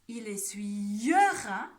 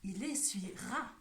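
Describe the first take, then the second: First: An extra 'e' vowel is heard in the verb. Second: No extra 'e' vowel is heard in the verb. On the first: The speaker calls it wrong. "On ne dit pas" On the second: The speaker calls it right. "on prononce ... Est-ce qu'on entend le E? Non"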